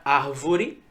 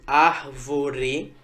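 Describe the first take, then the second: First: Said in the usual way. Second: "árvore" broken slowly into ár, vo, re; split into syllables. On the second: Shown as a demonstration. Teacher dividing an example word for students, syllable by syllable. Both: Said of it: "que eu divido desse jeito".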